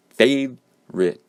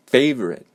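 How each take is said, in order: First: "favorite" slowly split, FAVE... rit, first part high; syllable-by-syllable stress. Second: "favorite" as FAVE-rit, higher start, falling end; first-syllable stress. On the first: Teacher breaks down the word, slow split "favorite" with first-syllable stress. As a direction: break "favorite" in two, strong first, weak second. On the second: Teacher demonstrates silent vowel, first-syllable stress on "favorite". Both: Shown as a demonstration. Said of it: "you have the first syllable being stressed".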